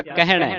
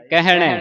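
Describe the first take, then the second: First: ਕਹਿਣੈ closing on a clear ai sound; open ai ending. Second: ਕਹਿਣੈ ending in a loud open ai, not e; louder ਕਹਿਣੈ with open ai; two dulainkar. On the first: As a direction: finish ਕਹਿਣੈ on ai, not e. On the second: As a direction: punch the final ai of ਕਹਿਣੈ. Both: Shown as a demonstration. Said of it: "ਕਹਿਣੇ ਨਹੀਂ ਪੜ੍ਹਨਾ".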